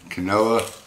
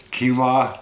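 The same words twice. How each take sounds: First: Quinoa said "kuh-NO-uh", three syllables; quinoa option two. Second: Quinoa said "KEEN-wah", two syllables; quinoa option one. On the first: Vlogger weighing two ways of saying it, "kuh-NO-uh". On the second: Vlogger weighing two ways of saying it, "KEEN-wah". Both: Shown as a demonstration. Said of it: "is it".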